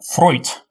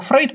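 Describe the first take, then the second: First: The name is said with an 'oy' diphthong. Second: The name is said with an 'ey' diphthong. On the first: This follows the original German pronunciation. "потому что немецкий дифтонг «еу» считается как «ой»" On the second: This is the conventional Russian rendering. "но у нас перевели как Фрейд"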